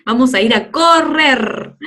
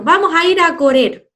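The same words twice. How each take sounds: First: "correr" slowed, with a long rolled RR; correct strong R. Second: "correr" mispronounced with a single tap, as corer, high and loud; wrong soft R. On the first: Teacher correcting the odd version, strong rolled R. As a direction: lean on the trill in "correr". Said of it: "Saldría extraño". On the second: Teacher showing how odd it would sound, soft R. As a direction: call it out with a weak R in "correr". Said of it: "saldría raro". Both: Shown as a demonstration.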